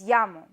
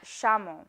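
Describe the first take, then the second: First: It is said in a different Spanish accent. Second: It is said in a Uruguayan Spanish accent. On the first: This is how the classmates insisted it should be said. "I was told" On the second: This is how the speaker naturally says it. "my accent"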